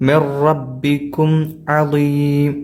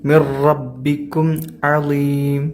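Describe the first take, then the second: No difference in how they are said.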